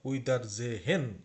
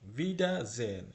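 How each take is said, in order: First: The last part is split into two syllables. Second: The last part is said as one syllable. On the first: The speaker calls it wrong. "এটা আপনারা অনেকেই হয়তোবা পড়বেন উইদার জেহেন, জেহেন ফালস অথবা ভুল" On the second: The speaker calls it right. "German এটার উচ্চারণ জেন"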